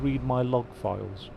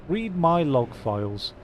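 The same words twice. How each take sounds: First: Said in the usual way. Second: "Read my log files" drawn out slow, a bit higher; slow emphasis. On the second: Shown as a demonstration. Gamer repeating "Read my log files" to himself, slow and stressed. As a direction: savour each word of "Read my log files" slowly.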